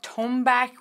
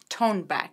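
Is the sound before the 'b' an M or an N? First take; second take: M; N. First: The middle consonant is an m sound. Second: The middle consonant is an n sound. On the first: The speaker calls it wrong. "Some people pronounce it Tonbak with M" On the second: The speaker calls it right. "some people pronounce it with N"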